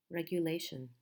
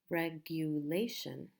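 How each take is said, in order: First: Said in the usual way. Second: "Regulation" stretched over re, gu, la, tion. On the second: Shown as a demonstration. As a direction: spell out the beats of "Regulation", leaning on la. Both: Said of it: "main stress is in a different part".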